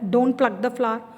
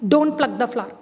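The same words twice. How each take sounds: First: It is said sternly, as an order. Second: It is said rudely, as a warning.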